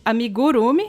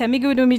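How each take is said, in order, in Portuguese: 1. Uma sílaba é mais forte que as outras. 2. Todas as sílabas têm o mesmo acento, ditas juntas. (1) "não tem amigu, amigurumi" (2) "como se todas as sílabas fossem tônicas... tipo tudo junto"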